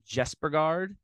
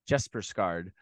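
First: The name has no s sound in the middle. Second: The name has an s sound in the middle. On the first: The speaker calls it wrong. "I'm hoping that I got that correct there" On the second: The speaker calls it right. "There's an extra S in there"

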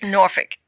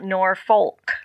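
First: The word is pronounced in a reduced local form. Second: The word is pronounced fully, as it is spelled. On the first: The speaker is from the area. The speaker calls it right. "It's Norfolk" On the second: The speaker is not from the area. The speaker calls it wrong. "that's not how you say Norfolk. It's not Norfolk"

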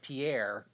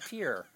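First: The name is said as two syllables, French-style. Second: The name is said as one syllable, like 'peer'. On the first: This is how outsiders say it. The speaker calls it wrong. "as everybody else in the United States would call it" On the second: This is how locals in the state say it. The speaker calls it right. "You had to walk to pier"

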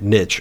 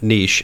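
First: The word gets the speaker's plain regional pronunciation. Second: The word gets a fancier, pretentious-sounding pronunciation. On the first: This is how people from the speaker's region say it. "niche as I say it because I'm from West Virginia" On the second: This pronunciation comes across as pretentious. "if you're pretentious"

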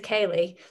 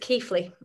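First: The first syllable does not sound like Keith. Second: The first syllable sounds like Keith. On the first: The speaker calls it wrong. "everybody says Keighley" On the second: The speaker calls it right. "but it's Keighley. ... Keith, like the name, then Lee"

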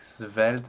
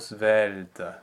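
First: It begins with a clear voiceless S. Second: It begins with a soft, half-voiced Z. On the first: The start of the word draws too much attention. The speaker calls it wrong. "some singers use a really frank S sound" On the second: The start of the word suggests slenderness. The speaker calls it right. "A very soft Z sound"

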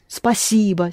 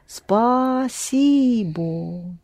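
First: The word is said smoothly as one unit. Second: The word is split into separate syllables.

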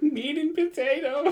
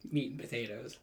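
First: It is said in a scared way. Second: It is said in a plain, neutral way.

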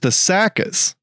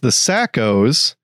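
First: It ends with an 'ah' sound, Memphis-style. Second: It ends with a standard 'oh' sound.

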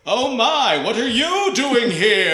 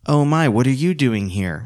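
First: It is said in a big, exaggerated way. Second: It is said in a restrained, low-energy way. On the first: "go ahead and bring it out" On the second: "Which is perfectly reasonable"

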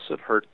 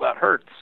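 First: It is said in a flat, emotionless voice. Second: It is said with pained emotion.

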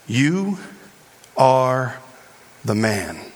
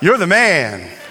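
First: It is said in a serious, blunt tone. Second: It is said in a playful, hyped tone. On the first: It accuses the listener of wrongdoing. "told him straight" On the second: It praises the listener. "Not like"

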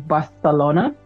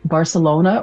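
First: It is said with a Spanish accent. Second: It is said with an English accent.

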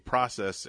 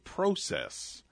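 First: It is said with an American pronunciation. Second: It is said with a Canadian pronunciation. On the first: "here in America, we say process" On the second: "in Canada, they say process"

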